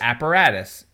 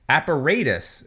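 First: It is said the speaker's American way. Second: It is said the British way.

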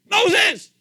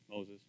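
First: The name is called out loudly. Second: The name is said calmly and plainly.

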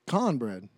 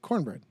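First: It is said with a Southern US accent. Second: It is said with a Northern US accent.

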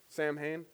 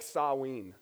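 First: It is said as 'Sam' plus 'hain'. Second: It is said as 'sa' plus 'ween'. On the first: The speaker calls it wrong. "Somebody like, first name Sam, last name Hain?" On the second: The speaker calls it right. "It's actually pronounced more like Saween"

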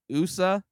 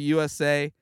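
First: It is pronounced as a single word. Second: It is spelled out as three letters. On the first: The speaker calls it right. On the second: The speaker calls it wrong.

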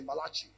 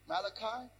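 First: Pronounced the Mexican Spanish way. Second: Pronounced the usual English way. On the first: "my Mexican friends say Malachi" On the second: "you guys call them Malachi"

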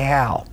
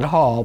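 First: The vowel rhymes with 'pal'. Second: The vowel rhymes with 'ball'. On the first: This is how the name's owner says it. "but I say Hal" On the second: This is how some other people say it. "some people call it Hall"

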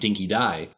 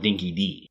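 First: The last word rhymes with 'eye'. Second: The last word rhymes with 'see'. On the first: The speaker calls it right. "I've been calling it Dinky Dye" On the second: The speaker calls it wrong. "they call it Dinky D"

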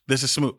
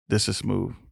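First: The voice is ordinary and plain. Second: The voice is low and seductive. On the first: The speaker calls it wrong. "This is not smooth" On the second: The speaker calls it right. "Back with the sexy voice"

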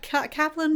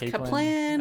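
First: The name is said in its usual form. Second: The name is said in a changed form.

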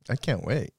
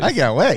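First: It is said flatly, without enthusiasm. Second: It is said with more enthusiasm.

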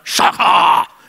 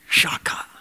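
First: The word is said in a harsh, growling voice. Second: The word is said in a plain, normal voice. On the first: "you can say it like a Klingon" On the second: "You can say it if you want"

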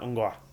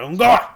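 First: It is said in a calm, relaxed way. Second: It is said in a sharp, angry way.

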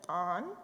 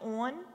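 First: It is said in a standard accent. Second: It is said in a local Baltimore accent. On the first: "instead of on" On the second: "I'll say like, oh, will you turn the light on"

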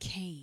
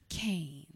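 First: The name is said with ordinary energy. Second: The name is said louder, with more energy.

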